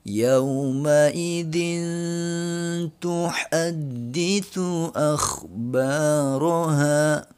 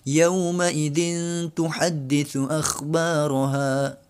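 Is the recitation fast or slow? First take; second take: slow; fast. First: It is recited at a slow pace. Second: It is recited at a fast pace.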